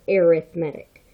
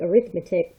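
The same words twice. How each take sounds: First: The stress is on the third syllable. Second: The stress is on the second syllable. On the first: It is the adjective describing a sequence. "when we say it as an adjective, we pronounce it as arithmetic" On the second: It is the noun naming the math subject. "I know it looks like arithmetic"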